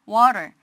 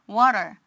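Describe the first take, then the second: Both takes have the same delivery.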